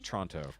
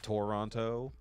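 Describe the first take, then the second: First: One vowel sound is dropped from the word. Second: Every vowel in the word is pronounced fully. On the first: The speaker calls it right. "as if there's no other O there" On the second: The speaker calls it wrong. "not Toronto"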